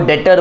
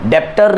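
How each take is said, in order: First: The b sound is silent. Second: The b sound is pronounced. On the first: The speaker calls it right. "इसको बी silent होता है यहाँ पे" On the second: The speaker calls it wrong. "डेप्टर नहीं है"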